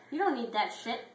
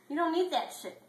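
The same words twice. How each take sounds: First: Firm pep talk. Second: High pep talk. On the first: [name] repeats the advice. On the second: [name] repeats the advice, higher. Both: Acted.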